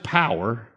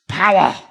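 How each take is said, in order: First: It is said flatly, without feeling. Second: It is said with strong, felt emphasis.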